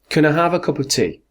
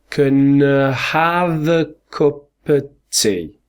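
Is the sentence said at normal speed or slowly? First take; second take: normal; slowly. First: The sentence is said at normal speed. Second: The sentence is said slowly.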